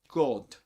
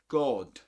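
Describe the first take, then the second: First: It is said with a rounded 'oh' vowel. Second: The same.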